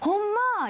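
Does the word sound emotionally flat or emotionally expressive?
expressive. It is said with strong, natural emotion. The speaker calls it right. "엄마 이렇게 얘기하지"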